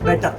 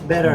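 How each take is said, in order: First: It is said in an Indian English accent. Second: It is said in an American English accent. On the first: "Indian English" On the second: "American English"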